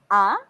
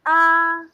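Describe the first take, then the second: First: The pitch rises quickly from low to high. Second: The pitch stays level and the vowel is prolonged. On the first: "from down to up ... Very quick" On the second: "you're like singing"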